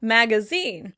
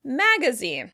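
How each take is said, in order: First: The stress is on the last syllable. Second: The stress is on the first syllable. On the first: This is the British pronunciation. "In British English, the word would be stressed on the last syllable" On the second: This is the American pronunciation. "In American English, the word will be stressed on the first syllable"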